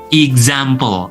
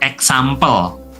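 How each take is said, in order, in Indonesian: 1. X dilafalkan dengan bunyi z. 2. X dilafalkan dengan bunyi s.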